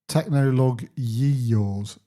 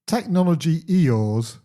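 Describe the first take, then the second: First: The break comes after 'technolog' before 'Yeeyores'. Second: The break comes after 'technology' before 'Eeyores'. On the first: This is a playful deliberate mispronunciation. The speaker calls it wrong. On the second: This is the real email address. The speaker calls it right.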